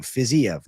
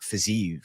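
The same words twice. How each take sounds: First: Fiziev said with a separate EV ending, fizz-ee-ev; three-syllable pronunciation. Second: Fiziev run into two syllables, fizz-EEV; two-syllable pronunciation. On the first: Streamer giving his preferred version of the fighter's name, Fiziev as fizz-ee-ev. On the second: Streamer giving the version he rejects, Fiziev as two-syllable fizz-eev. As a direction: say Fiziev with one long EEV ending. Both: Shown as a demonstration. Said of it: "not Fiziev".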